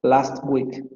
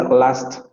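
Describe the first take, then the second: First: "last week" at normal speed, "t" of "last" kept; pronunciation demo. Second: "last" slowly, with the final "t" clearly sounded; slow pronunciation demo. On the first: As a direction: model "last week" at an everyday pace. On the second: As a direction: spell out "last" slowly so the "t" is heard. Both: Shown as a demonstration. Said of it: "porque dice last".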